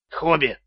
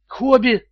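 First: Said in the usual way. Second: High, disbelieving question; incredulous. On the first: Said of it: "сказал Стоун". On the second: A narrator's reading. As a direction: echo the name in disbelief. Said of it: "недоверчиво повторил финансовый директор". (недоверчивый переспрос)

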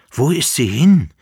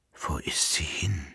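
First: Louder, higher desperate call. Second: Soft, unvoiced whisper. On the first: The Emperor waking from his dream, calling out loudly. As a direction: cry it out into the empty room. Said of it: "rief der Kaiser". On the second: The Emperor, awake before his valet, whispering. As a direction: ask it under your breath, dazed. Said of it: "flüsterte der Kaiser". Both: A narrator's reading.

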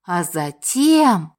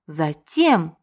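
First: Drawn-out and weighty; slow dramatic pause. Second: Said in the usual way. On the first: A narrator's reading. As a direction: stretch it, then pause.

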